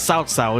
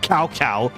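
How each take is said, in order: First: The name starts with a ts sound. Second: The name starts with a k sound. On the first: The speaker calls it right. "start pronouncing South Sao as South Sao" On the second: The speaker calls it wrong. "instead of Cow Cow"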